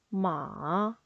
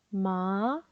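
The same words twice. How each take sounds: First: The pitch falls low, then rises. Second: The pitch rises toward the end. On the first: "음을 내렸다 올리시면 돼요" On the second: "이성은 끝음을 올리시면 돼요"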